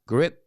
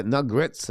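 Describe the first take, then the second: First: "grit" said without a final s, set right; "grit", no s, the corrected form; correct singular. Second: "grits" said with a final s as the wrong form; "grits" with an audible s, the mistaken version; wrong plural. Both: Shown as a demonstration. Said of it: "coach is grit, not grits".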